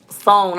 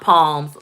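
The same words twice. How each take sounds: First: "song" with an s sound first, no p; correct psalms pronunciation. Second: "palms" starting with a popped p; p-sound mispronunciation. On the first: Vlogger relaying a viewer's correction, "song" begun with s. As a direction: say "song" starting on a drawn-out s. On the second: Vlogger repeating her corrected mistake, "palms" begun with p. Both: Shown as a demonstration. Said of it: "It's pronounced song, not palms".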